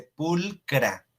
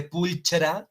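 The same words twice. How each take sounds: First: Pulcra with a hard k sound, pul-kra, slow; correct pulcra. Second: Pulchra with a ch sound, pult-chra; wrong pulchra. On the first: Teacher giving Latin students the right pronunciation, slow pulcra with k. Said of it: "No se dice pulchra". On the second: Teacher showing students the mistaken pronunciation, pulchra with ch. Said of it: "no, se dice pulcra". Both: Shown as a demonstration.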